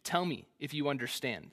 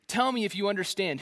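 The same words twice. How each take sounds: First: Said in the usual way. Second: Snarky challenge. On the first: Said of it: "This is straight snark". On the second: Retold or imitated. God taunting Job with a snarky, higher challenge. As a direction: Tell me if you understand, higher and pushier with a snarky bite. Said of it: "This is straight snark. God is going ape".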